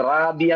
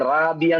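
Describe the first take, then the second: First: The r is light, like Malayalam ra. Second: The r is light, like Malayalam ra.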